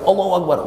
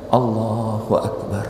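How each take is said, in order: First: It is shouted loudly. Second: It is said softly and humbly. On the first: The speaker calls it wrong. "nggak gitu" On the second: The speaker calls it right. "Justru kita makin merendah"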